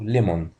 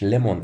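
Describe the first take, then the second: First: The second vowel is a full rounded o. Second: The second vowel is short and reduced. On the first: The speaker calls it wrong. "ناس كتير بتنطقها غلط للأسف ويقولوا ليمون" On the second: The speaker calls it right. "النطق الصحيح بتاع الكلمة دي اسمه ليمون"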